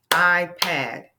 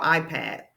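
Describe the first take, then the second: First: IPad split firmly as "I, Pad"; louder iPad, one beat per syllable; clapped-out syllables. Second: Said in the usual way. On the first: Shown as a demonstration. Teacher clapping out iPad, syllable by syllable. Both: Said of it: "So let's clap out iPad".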